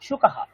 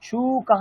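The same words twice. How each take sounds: First: The first vowel is short. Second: The first vowel is long. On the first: The speaker calls it right. "তেমনি সুকাহা" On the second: The speaker calls it wrong. "এরকম উচ্চারণ কিন্তু করলাম না"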